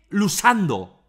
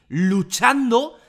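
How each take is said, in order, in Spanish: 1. La consonante del medio es un sonido s. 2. La consonante del medio es un sonido ch. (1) "dice lusando" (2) "en lugar de decir luchando"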